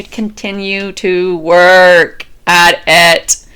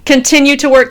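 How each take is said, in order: First: Slow, low and weighty; slow deliberate final repetition; drawn-out emphatic mantra. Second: Said in the usual way. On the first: Shown as a demonstration. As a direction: stretch every word out like a vow. Closing the repeated mantra.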